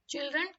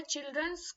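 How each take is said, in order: First: चिल्ड्रन said plainly as the correct plural, with no s on the end; the right form: चिल्ड्रन, ending on n; चिल्ड्रन stated as the proper word. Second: चिल्ड्रंस said with an extra s sound tacked onto the end; the mistaken form: चिल्ड्रंस, ending in ns; चिल्ड्रंस shown as the error children make; wrong plural. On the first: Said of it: "चिल्ड्रन खुद एक plural word है". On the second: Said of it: "चिल्ड्रंस कोई word नहीं होता है". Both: Shown as a demonstration.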